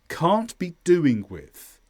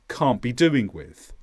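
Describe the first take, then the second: First: The T at the end of can't is pronounced. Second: The T at the end of can't is dropped. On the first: "It's pronounced like this" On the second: "in fast English, you might drop the T at the end of can't, and it'd be more like this"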